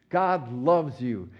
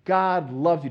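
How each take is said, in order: First: Slow, gentle and sincere, stretching God loves you. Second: Said in the usual way. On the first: Shown as a demonstration. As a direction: say God loves you slowly, meaning every word. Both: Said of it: "It just say it sincerely".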